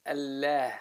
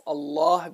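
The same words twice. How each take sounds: First: "Allah" said thin, with a front "æ"; light lam. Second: "Allah" said thick, with a back "ah"; heavy lam. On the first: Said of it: "becomes light again if the word". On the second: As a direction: darken the L of "Allah". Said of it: "it becomes a heavy letter". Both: Shown as a demonstration.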